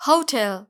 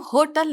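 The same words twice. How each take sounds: First: होटल said "ho-TEL", full e; correct pronunciation. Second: होटल said "HO-tul", weak second vowel; wrong pronunciation. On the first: Teacher corrects the word, clearly pronounced. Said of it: "इसकी correct pronunciation है". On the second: Teacher shows how not to read it, mispronounced. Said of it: "इसको हम होटल नहीं पढ़ेंगे". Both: Shown as a demonstration.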